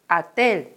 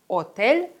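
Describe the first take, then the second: First: The first vowel is a short, weak a. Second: The first vowel is a full, clear o. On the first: The speaker calls it right. "sondern ... Отель" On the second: The speaker calls it wrong. "Wir sagen also nicht ... oder Hotel"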